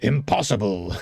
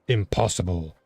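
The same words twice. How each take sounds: First: The word is said at a higher pitch. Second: The word is said at a lower pitch. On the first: "The next one's like impossible" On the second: "a lower impossible"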